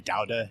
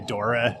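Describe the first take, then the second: First: It is said with a Catalan pronunciation. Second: It is said with an American-style pronunciation. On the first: This is how people in Barcelona say it. The speaker calls it right. "that's the Catalan pronunciation" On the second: People in Barcelona find this odd. The speaker calls it wrong. "they'll look at you weird if you say Dora or Daura"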